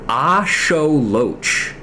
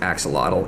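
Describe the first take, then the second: First: The word ends with a 'ch' sound. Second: The word ends with a 'tl' sound. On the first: The speaker calls it right. "It's pronounced axoloch" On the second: The speaker calls it wrong. "that word is actually not pronounced axolotl"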